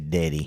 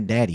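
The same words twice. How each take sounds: First: It is said in a hillbilly accent. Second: It is said in a plain accent. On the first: The speaker calls it right. "you say Daddy" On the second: The speaker calls it wrong. "You don't say Daddy"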